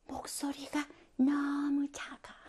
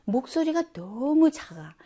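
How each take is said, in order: First: Slow, barely audible whisper; drawn-out whispered mimicry; too-quiet presenter. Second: Said in the usual way. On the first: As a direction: imitate a student presenting far too softly. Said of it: "발표의 모습 뭐냐면".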